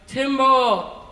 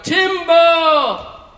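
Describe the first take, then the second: First: It is yelled loudly. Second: It is yelled even more loudly.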